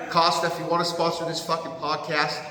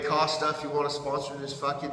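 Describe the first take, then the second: First: Said in the usual way. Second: Words breaking into laughter; real laughter over "Costa, if you wanna sponsor"; laughing. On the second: Real, not acted. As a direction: giggle through the sponsor plea. Cracks up during sponsor plea.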